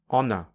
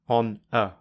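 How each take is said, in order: First: The two words run together smoothly. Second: The two words are said separately. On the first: "with linking" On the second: "without linking"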